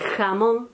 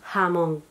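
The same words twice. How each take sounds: First: The first consonant is a harsh throat fricative. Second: The first consonant is a soft breathy h. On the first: "en vez de decir" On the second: "medio lo aspiramos"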